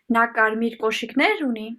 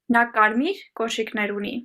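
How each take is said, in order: First: The word կոշիկներ is said with higher pitch. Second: The word կարմիր is said with higher pitch. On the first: The question asks about the shoes. "If I want to ask the word shoes, I would pronounce the sentence in the following way" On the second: The question asks about the color. "if I want to ask the color, I would pronounce the sentence in the following way"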